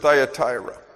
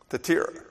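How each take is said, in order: First: The name is said with an English pronunciation. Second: The name is said with a Greek pronunciation. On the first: "That's the English pronunciation" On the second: "In Greek, it's Thyatira"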